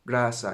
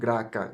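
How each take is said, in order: First: The middle consonant is an s sound. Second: The middle consonant is a k sound. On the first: The speaker calls it right. "that you pronounce sa" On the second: The speaker calls it wrong. "instead of"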